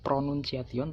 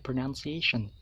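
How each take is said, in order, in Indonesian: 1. Kata itu dibaca huruf demi huruf sesuai ejaannya. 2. Kata itu diucapkan dengan bunyi bahasa Inggris biasa.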